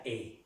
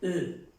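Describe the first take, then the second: First: "E" as a clear Spanish-like E; acute-accent E. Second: "E" as a French "euh"; E without accent. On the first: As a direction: sound "E" closed and unrounded, as in "é". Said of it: "Pero tiene el acento agudo". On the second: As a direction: sound "E" as a rounded schwa. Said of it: "Si no tuviera el acento agudo". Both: Shown as a demonstration.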